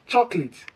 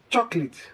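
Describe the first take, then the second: The two takes are said the same way.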